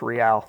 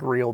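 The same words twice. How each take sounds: First: It sounds different from the everyday word real. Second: It sounds like the everyday English word real. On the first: This is how the name is actually said. The speaker calls it right. "but it's Real" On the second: This is how the spelling suggests it. The speaker calls it wrong. "It looks like real"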